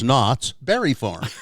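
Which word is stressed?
Berry. The stress falls on the word Berry. The speaker calls it right. "because they had a berry farm"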